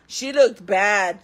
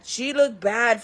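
First: "she looked bad" drawn out slowly, leaning on looked; slow emphasis. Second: Said in the usual way. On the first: Shown as a demonstration. Bragging to viewers about the cellmate, slow emphatic. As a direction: stretch "looked bad" out for weight.

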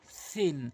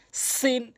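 First: সিন begun like th in "thin"; tongue tip on front teeth, softer and lispy সিন; soft dental th. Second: সিন with a clear long s; tongue tip at tooth edges, s in সিন; hissed sin. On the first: Teacher contrasts two letters, soft th in সিন. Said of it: "জিহ্বার আগা সামনে দাঁতের আগা". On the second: Teacher contrasts two letters, clear s in সিন. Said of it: "সিন হচ্ছে জিহ্বার আগা". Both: Shown as a demonstration.

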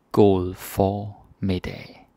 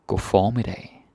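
First: God formiddag drawn out slowly with stress on god; slow demo. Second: Said in the usual way. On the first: Shown as a demonstration. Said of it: "slow demo". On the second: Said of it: "normal demo".

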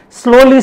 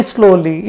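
First: "Slowly" said high and loud, drawn out; emphatic slowly. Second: Said in the usual way. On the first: Acted. Emphatic repeated word in sermon.

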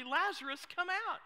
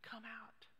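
First: Loud, high call; commanding declaration. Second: Very soft, near-whispered call; hushed summons. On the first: Jesus calls Lazarus out of the tomb, loud declaration. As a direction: call it out as a simple, forceful command. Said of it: "he declares quite simply". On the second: Preacher puts the question to the congregation, hushed summons. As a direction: invite them out under the breath. Soft echo of Jesus' command. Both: Acted.

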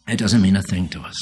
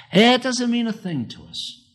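First: Said in the usual way. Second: High, ringing emphatic statement. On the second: Acted. Preacher stressing to his church that the verse means nothing. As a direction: throw the line up high to the congregation. Repeated line, first take high.

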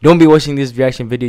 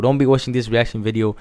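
First: Fast and loud, pushing the energy up; urging viewers not to be bored, hyped; louder, higher hyped repeat. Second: Said in the usual way. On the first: Real, not acted. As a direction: rev up the viewers. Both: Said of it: "hype it up".

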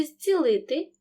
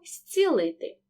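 First: Said in the usual way. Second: З in «зцілити» said as с; devoiced prefix. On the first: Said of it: "префікс «з» перед глухим". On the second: Shown as a demonstration. Teacher models the resulting spoken form, prefix devoiced. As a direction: say «зцілити» as stsilyty. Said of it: "Так само відбудеться оглушення".

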